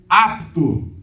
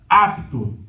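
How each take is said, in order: The two takes are said the same way.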